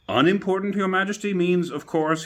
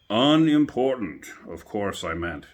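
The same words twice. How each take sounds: First: High, loud, fussy courtier voice. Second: Slow, loud, drawn-out "Unimportant"; hasty king. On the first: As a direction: correct the king with anxious politeness. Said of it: "he said in a very respectful tone". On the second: The king correcting himself before the jury, slow and loud. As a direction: cover a blunder with pompous dignity. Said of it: "the king hastily said". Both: A narrator's reading.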